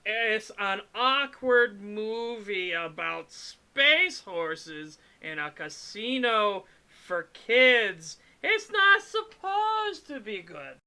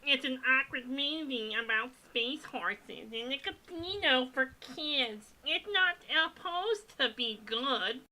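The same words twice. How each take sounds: First: High, slow squeaky goblin voice. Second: High, odd goblin voice, second attempt; goblin voice retry. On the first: Pretend. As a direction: stretch it out in a shrill goblin voice. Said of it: "Is that the goblin voice?". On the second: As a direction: try the goblin voice again, nasal and weird. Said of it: "What's the goblin voice?".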